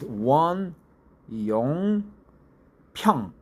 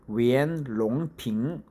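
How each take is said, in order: First: The name is said with its Korean reading. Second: The name is said with its Chinese reading. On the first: "We pronounce it" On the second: "Chinese pronounce it"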